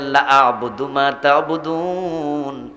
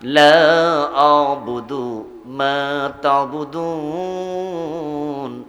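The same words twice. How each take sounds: First: The vowel in 'la' is cut short. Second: The vowel in 'la' is drawn out long. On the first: I too am willing to worship what you worship. The speaker calls it wrong. "যদি আপনি টান না দেন" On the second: I do not worship what you worship. The speaker calls it right. "এখানে লাতে টান আছে"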